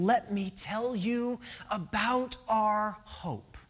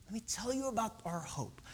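First: Slow, deliberate, spacing out the words; slow proclamation. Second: Much softer, intimate delivery; hushed repeat. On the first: Preacher voicing Mark to struggling believers, slow and deliberate. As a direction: announce it slowly, weighing each word. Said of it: "here is Mark saying". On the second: Preacher repeating Mark's promise of hope, hushed. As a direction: say it gently, almost under the breath. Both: Acted.

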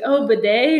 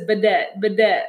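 First: Said in the usual way. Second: Bidet said as "puh-DET", stress on the end; odd accented bidet. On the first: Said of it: "And she's like". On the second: Retold or imitated. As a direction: imitate his odd "Bidet, bidet", both with a falling tune. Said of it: "He says it weird".

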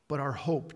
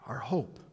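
First: Said in the usual way. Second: Whispered, hushed repeat of "our hope". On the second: Acted.

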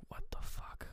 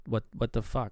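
First: Barely audible, voiceless whisper; mouthed whisper. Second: Said in the usual way. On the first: Retold or imitated. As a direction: mouth it to yourself with almost no sound. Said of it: "Wallace mouths one more time". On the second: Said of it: "Seriously, what".

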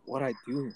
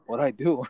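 First: Softer retold inner voice; thinking to oneself. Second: Asked aloud with a rising end; mildly taken aback, retelling your reply; puzzled retold question. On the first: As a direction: wonder it privately, a little quieter. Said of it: "I'm all thinking to myself". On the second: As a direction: question the summons, lightly acted. Retold reply to being summoned.

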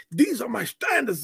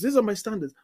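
First: Proud, high-nosed insistence; haughty. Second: Insistent. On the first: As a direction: declare it smugly. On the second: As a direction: press the point home again. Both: Retold or imitated. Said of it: "you're going like".

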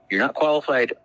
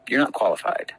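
First: "You're not qualified." said again, higher and a bit louder, hitting "qualified"; emphatic repeat. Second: Said in the usual way. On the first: Retold or imitated. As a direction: push "qualified" harder the second time.

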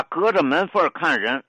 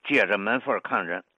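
First: Said in the usual way. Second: 借着门缝儿看人 opening on "jie" instead of ge; old Tianjin pronunciation. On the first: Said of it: "读作借着门缝儿看". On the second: Shown as a demonstration. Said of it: "比如老天津呢".

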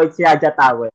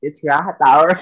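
First: "Raja Tower" with J as in jam; J pronounced as English J. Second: "Raha Tower" with an H sound; J pronounced as H. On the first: Driver correcting passenger's pronunciation, "Raja Tower" with English J. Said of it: "uncle taught me". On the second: Passenger correcting cab driver, "Raha Tower" with H. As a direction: insist on "Raha Tower", H in place of J. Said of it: "you pronounce J as H". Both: Retold or imitated.

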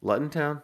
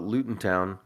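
First: LUTON said LUT-n, higher, as a query; Luton, first vowel as in "cut"; Luton with short u. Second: LUTON said with "oo" in the first syllable, LOO-tn; Luton, first vowel as in "loot"; Luton with long oo. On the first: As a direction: try "Luton" as LUT-n, unsure. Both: Shown as a demonstration. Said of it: "I don't know how to pronounce that".

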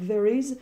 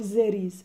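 First: Said in the usual way. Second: "there is" with a Z in place of TH. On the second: Retold or imitated. Teacher imitating a French speaker's English, "there is" with Z for TH. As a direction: say "there is" as "zeris".

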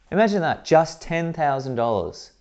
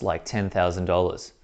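First: Amazed. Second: Said in the usual way. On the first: Real, not acted. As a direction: stretch it out in awe. Price repeated in amazement.

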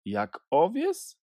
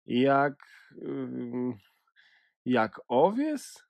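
First: Said in the usual way. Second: A touch of hurt sadness, slow and hesitant; sad. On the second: A narrator's reading. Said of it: "ze smutkiem w głosie".

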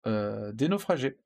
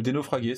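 First: Naufragés with a soft French g, nofrajé; soft g pronunciation. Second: Naufragés with a hard g, nofragué, like Naufrag; hard g pronunciation. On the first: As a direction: say naufragés as nofrajé, drawn-out final é. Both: Shown as a demonstration. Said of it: "c'est comme vous voulez".

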